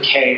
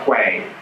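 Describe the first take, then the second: First: The word rhymes with 'day'. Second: The word begins with a 'kw' sound. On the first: "Other times they pronounce it K" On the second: "or quay"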